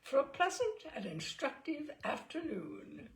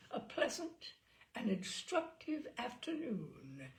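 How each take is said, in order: First: Said in the usual way. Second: Rolling the words. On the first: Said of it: "repeated Lord Ickenham". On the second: A narrator's reading. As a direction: savour every syllable like good port. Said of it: "rolling the words round his tongue".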